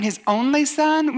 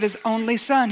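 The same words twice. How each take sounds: First: Higher, slow questioning of the phrase; incredulous echo. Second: Said in the usual way. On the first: Acted. Skeptic questioning the verse just quoted, incredulous echo. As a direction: throw it back as a doubting listener.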